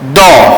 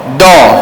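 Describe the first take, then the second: Both takes have the same delivery.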